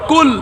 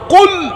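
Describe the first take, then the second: First: It starts with a plain front 'k' sound. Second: It starts with a deep throat 'q' sound. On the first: It means 'eat'. The speaker calls it wrong. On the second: It means 'say'. The speaker calls it right.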